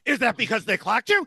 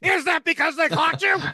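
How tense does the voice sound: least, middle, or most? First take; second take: middle; most. First: The voice sounds noticeably more tense. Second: The voice sounds at its most tense. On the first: "in an increasingly tenser voice" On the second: "in an increasingly tenser voice"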